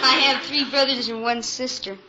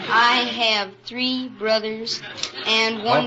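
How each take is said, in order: First: It is said fast. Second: It is said slowly.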